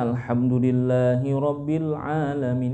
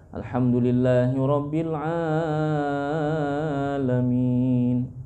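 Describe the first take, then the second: First: The long vowels are held for a normal length. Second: The long vowels are stretched out much too long. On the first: The speaker calls it right. "kan dibaca begitu" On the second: The speaker calls it wrong. "Terlalu panjang"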